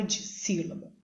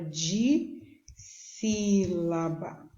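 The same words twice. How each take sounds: First: Said in the usual way. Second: "de sílaba" stretched slowly with a long break after "de"; syllable by syllable. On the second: Shown as a demonstration. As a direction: draw out each part of "de sílaba". Teacher splitting the term into syllables.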